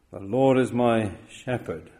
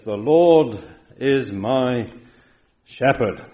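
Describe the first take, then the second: First: Said in the usual way. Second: Slow, loud stress on Lord; The Lord is my shepherd, with Lord drawn out and loud; slow emphatic. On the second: Shown as a demonstration. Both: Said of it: "He says emphatically".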